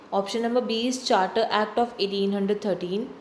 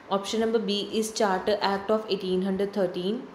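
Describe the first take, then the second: The two takes are said the same way.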